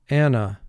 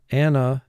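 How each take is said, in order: First: The word is said smoothly as in everyday speech. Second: The word is said smoothly as in everyday speech.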